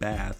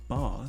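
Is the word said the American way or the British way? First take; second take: American; British. First: It is said like the everyday word bathtub. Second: It is said the way locals say it. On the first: This is how the spelling reads to the speaker. "It's spelled like bath, like a bathtub" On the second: This is how the local people say it. "but they pronounce it Bath"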